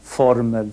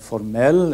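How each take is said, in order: First: The stress is on the first syllable. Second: The stress is on the second syllable. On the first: It means a formula. "betoningsmönster i ord" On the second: It means formal. "betoningsmönster i ord"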